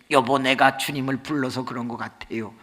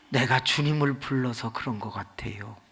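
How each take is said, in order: First: Said in the usual way. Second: Unvoiced gentle whisper stressing 주님을; soft whisper. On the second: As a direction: whisper it tenderly to the husband. Wife softly explains.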